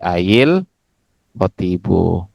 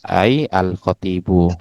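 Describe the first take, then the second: First: The word 'ay' takes an i-vowel, linking onward. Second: The word 'ay' ends without a vowel, separately. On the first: Two silent consonants meet, so a vowel is added. "Kecuali kalau dibacanya nanti ail khotibu" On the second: Each word is read on its own, word by word. "kalau terjemah perkata disukunkan"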